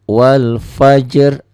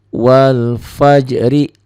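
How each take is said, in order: First: The phrase ends on a bare consonant. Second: The phrase ends with a final vowel sound. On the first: The reading stops at this word. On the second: The reading continues into the next word.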